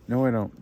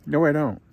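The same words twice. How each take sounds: First: Said in the usual way. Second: Emphatic retort. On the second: Retold or imitated. Retorting to his son.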